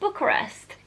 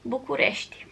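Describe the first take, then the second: First: The name is said with English pronunciation. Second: The name is said with Romanian pronunciation. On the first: "the Romanian capital is Bucharest" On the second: "In Romania you pronounce that as București"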